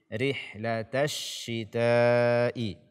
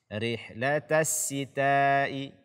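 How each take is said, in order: First: The second word starts with a spread sh. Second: The second word starts with a plain s. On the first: The speaker calls it right. "akan tetapi dia shin" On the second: The speaker calls it wrong. "menggantinya dengan sin"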